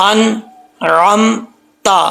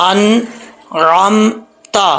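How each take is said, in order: The two takes are said the same way.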